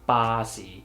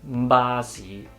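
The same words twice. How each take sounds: First: Voicing starts as the lips open. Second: Voicing starts before the lips open. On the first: The speaker calls it right. "so we just say ba si. Release the airflow and pronounce the sound at the same time" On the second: The speaker calls it wrong. "it would be weird to pronounce the B sound the same way in Cantonese"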